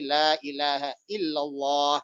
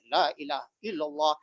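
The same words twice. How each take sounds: First: The long vowels are drawn out. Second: The long vowels are cut short. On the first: The speaker calls it right. "Sebenarnya yang pas ya dibaca seperti tadi" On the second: The speaker calls it wrong. "yang seharusnya panjang akhirnya pendek"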